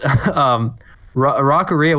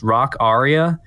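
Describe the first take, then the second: First: It is said as one blended word. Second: It is said as two words, rock aria. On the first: The speaker calls it wrong. "I think I pronounced it that way for a while" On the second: The speaker calls it right. "it's supposed to be pronounced rock aria, like an opera aria"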